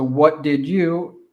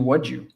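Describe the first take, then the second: First: Each word is said fully and separately. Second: The words are contracted and reduced together. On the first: "So what did you turns into" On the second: "turns into what'd you"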